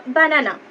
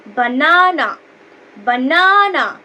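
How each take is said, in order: First: Said in the usual way. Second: banana with the middle না loud and drawn out; stress on NA. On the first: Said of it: "সেক্ষেত্রে আমরা কি বলবো?". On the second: Shown as a demonstration. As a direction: punch the second syllable of banana, slowly. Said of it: "এন এটাকে একটু জোরে উচ্চারণ". (বানানা-র মাঝের 'না' জোরে, টেনে উচ্চারণ)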